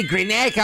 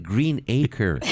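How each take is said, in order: First: "Greenacre" run together as one word, Aussie-style; Australian Greenacre. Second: "Green Acre" slowly as two separate words; split-word Green Acre. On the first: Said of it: "the people tell me Greenacre". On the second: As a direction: pull "Green Acre" apart, each word fully sounded. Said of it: "And then I say". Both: Retold or imitated.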